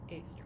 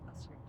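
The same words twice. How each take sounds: First: The first word sounds like the letter A. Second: The first word is a reduced 'uh' sound. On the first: It names the street called A. "They probably pronounce it A Street" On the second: It means any street at all. "not a street"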